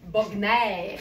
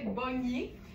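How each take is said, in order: First: The name is pronounced the German way. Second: The name is pronounced the French way. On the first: The speaker calls it right. "c'est une marque de Munich ... je pense que c'est plus quelque chose comme Bogner" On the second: The speaker calls it wrong. "je crois avoir toujours très mal prononcée parce que je disais Bognier"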